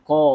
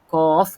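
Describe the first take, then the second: First: The final f sound is dropped. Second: The final f sound is pronounced. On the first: The speaker calls it wrong. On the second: The speaker calls it right.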